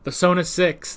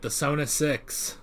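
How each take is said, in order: First: Said in the usual way. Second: Softer and slow, savoring the name. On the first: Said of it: "That has a good ring to it". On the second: Shown as a demonstration. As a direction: roll "The Sona Six" out softly and slowly, relishing it. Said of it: "That has a really good ring to it".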